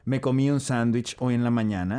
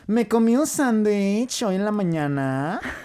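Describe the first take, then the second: First: It is said in a plain, neutral accent. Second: It is said in a pretentious accent with pitch going up. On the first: "In normal Spanish" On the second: "the girl version... everything just goes up"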